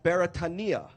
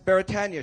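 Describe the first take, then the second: First: It is said with a Hawaiian pronunciation. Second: It is said with a common English pronunciation. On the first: This is the original Hawaiian word. "it is pronounced properly as Beretania" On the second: This is the familiar everyday name. "we know it as Beretania Street"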